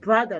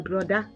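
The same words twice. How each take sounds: First: It is said with an American accent. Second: It is said with a Ghanaian accent. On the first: The speaker calls it wrong. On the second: The speaker calls it right.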